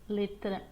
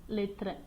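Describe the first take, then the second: The two takes are said the same way.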